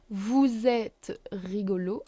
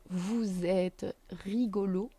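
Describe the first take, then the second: First: "vous êtes" linked with a z; liaison. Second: "vous êtes" joined with a z; liaison. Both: Shown as a demonstration. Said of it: "Liaison between vous and êtes".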